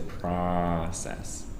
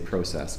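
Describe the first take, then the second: First: The word is said with an American pronunciation. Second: The word is said with a Canadian pronunciation. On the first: The speaker calls it wrong. "We don't say process. ... it sounds like you're baying like a donkey" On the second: The speaker calls it right. "difference in the Canadian uh, way of speaking in the U S. ... So we say process"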